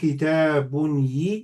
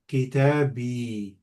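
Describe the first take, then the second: First: An extra -un syllable comes before the final yi. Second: The final i attaches directly with no extra syllable. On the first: The speaker calls it wrong. "you can see that goes up, down is too much" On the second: The speaker calls it right. "So to make it easy, they say kitabi"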